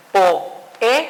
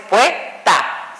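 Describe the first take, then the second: First: "poeta" split into PO, E, TA with pauses; syllable by syllable. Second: "poeta" squeezed into PUE-TA; two-syllable poeta. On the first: Teacher showing the hiatus, "poeta" broken slowly as po-e-ta. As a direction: separate the vowels of "poeta", po... e... ta. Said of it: "separa dos vocales fuertes". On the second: Teacher showing the wrong split, "poeta" as two syllables, pue-ta. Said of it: "sucede lo mismo, no es poeta". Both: Shown as a demonstration.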